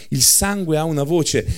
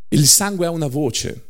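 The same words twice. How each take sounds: The two takes are said the same way.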